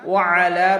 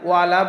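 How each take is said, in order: First: A throat consonant is pronounced before the second a. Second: It runs smoothly with an l and no throat sound. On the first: It means upon them. The speaker calls it right. "আইনের উচ্চারণ করতে হবে" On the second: It means not upon them. The speaker calls it wrong. "এখানে আমরা ওয়ালা বলবো না"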